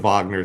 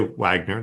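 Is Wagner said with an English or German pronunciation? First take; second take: German; English. First: Wagner is said with a German pronunciation. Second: Wagner is said with an English pronunciation. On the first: It follows how the name is said at home. "the Wagner thing" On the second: It uses the Anglo version of the name. "You could just say Wagner. That's fine"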